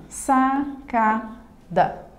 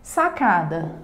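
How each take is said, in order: First: "Sacada" in three slow beats: sa, ca, da; syllable by syllable. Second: Said in the usual way. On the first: Shown as a demonstration. Teacher showing three syllables to students, syllable by syllable. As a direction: pause after each syllable of "Sacada". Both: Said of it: "Também possui três sílabas".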